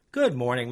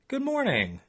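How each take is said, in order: First: Said in the usual way. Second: Higher, friendly woman's voice; lightly voiced Holly; Holly's voice. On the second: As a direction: greet him like a cheerful older lady. Holly answers the narrator.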